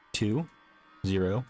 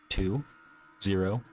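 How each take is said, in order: Both takes have the same delivery.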